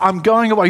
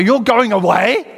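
First: Said in the usual way. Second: Loud, high incredulous question; panicked disbelief. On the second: Acted. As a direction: echo it back aghast, rising at the end. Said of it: "I wanted you to kind of feel the panic".

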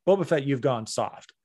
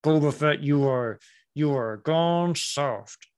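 First: Easy, open-mouthed villain line, lightly voiced; Cad Bane as he should sound. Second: Slow, halting words with teeth shut; mock Cad Bane. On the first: Fan correcting the villain's delivery, calm and controlled. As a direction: say the threat calmly, teeth unclenched. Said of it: "that's not how you sound". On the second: Fan showing how the actor got it wrong, teeth shut. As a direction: imitate a villain straining through clenched teeth. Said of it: "Talking with your teeth shut".

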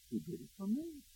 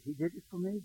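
First: Much softer, higher, voice nearly breaking; breaking whisper. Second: Quiet, choked-up retelling of her words; hushed, on the edge of tears; tearful quote. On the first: Pastor echoing her words, fading into a tearful hush. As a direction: let it fade into tears, hushed. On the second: Pastor retelling the weeping woman's realization, softly tearful. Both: Retold or imitated. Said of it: "she wept".

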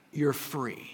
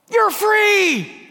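First: Soft, quiet, gentle release; God softly granting freedom; tender reassurance. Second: Much higher, louder gleeful yell; a hammed-up cry to a room of toddlers; mock shout. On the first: Acted. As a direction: tell them gently they're free. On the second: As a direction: fling the door open and holler it. Opening kindergarten door, shouting.

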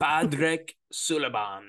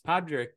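First: Slow, hammy fake Irish accent; bad Irish accent. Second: Mock Irish accent; Irish accent, light touch. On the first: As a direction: ham up a bad Irish brogue. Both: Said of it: "That was a really bad Irish accent".

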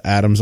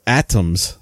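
First: "Adams" said as the name Adams, with a d sound; wrong name. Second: "Atoms" said with a t, like atomic; slower, careful "Atoms" as the fix; corrected name. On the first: Retold or imitated. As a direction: misspoken "Adams" before correcting to "Atoms". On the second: Shown as a demonstration. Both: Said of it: "not Adams".

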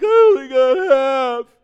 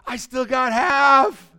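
First: Mock wail, high, loud and drawn out; whining pessimist. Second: Mock-delighted shout, high and fast; upbeat optimist. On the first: Preacher acting the half-empty people, loud mock wail. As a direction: bawl it slowly as a hammed-up complaint. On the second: Preacher acting the half-full people, elated shout. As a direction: crow it loud, high and quick. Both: Contrasting two outlooks on same glass.

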